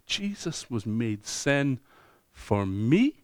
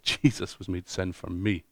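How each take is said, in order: First: It is said like a questioning, rising query. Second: It is said like a firm, falling statement. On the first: The speaker is unsure whether it is true. "Now you might say it with a question mark" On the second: The speaker is certain it is true. "And you know that's the truth"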